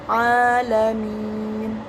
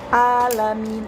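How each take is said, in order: First: The final syllable min is long. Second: The final syllable min is short. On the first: The speaker calls it right. "tapi alamin, minnya panjang" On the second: The speaker calls it wrong. "bukan alamin"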